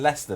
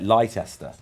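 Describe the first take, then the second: First: The name is said in its usual short form. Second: The name is said sounding out every spelled letter. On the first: "I live in Leicester" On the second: "if anyone like ever reads it, it's like Leicester"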